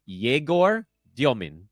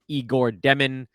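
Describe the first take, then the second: First: The name is said in a fuller, harder form. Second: The name is said in a quick, simplified form. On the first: This is how the player says his own name. The speaker calls it right. "He says it is Yegor Dyomin" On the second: This is how broadcasters will likely say it. The speaker calls it wrong. "you're going to hear him called Igor Demin, but that's not how he pronounces his own name"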